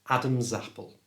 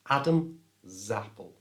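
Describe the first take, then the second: First: The words run smoothly together without a break. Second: The Z sound starts the second word, with a break. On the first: "bring them together" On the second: "move the S ... over to the front of the A of apple, so it becomes Adam Zapple"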